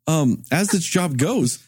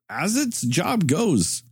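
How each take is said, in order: First: It has the speaker's ordinary, natural cadence. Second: It has an odd, halting, celebrity-impression cadence.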